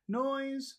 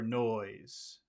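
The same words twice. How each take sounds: First: The word is said on a high pitch. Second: The word is said on a low pitch.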